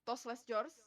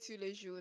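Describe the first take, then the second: First: The s sounds in the name are pronounced. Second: The s sounds in the name are silent. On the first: This is how Indonesians usually say it. "That's how my parents would call it" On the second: This is the proper French way. "I end up saying to Leju nowadays"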